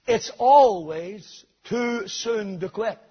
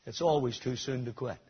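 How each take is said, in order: First: "It's always too soon to quit." slow, louder, "always" stretched and rising; slow it down and lean on "always"; repeated with force. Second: Said in the usual way. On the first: Shown as a demonstration. Preacher driving the saying home to the congregation, slow and emphatic. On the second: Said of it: "used to say".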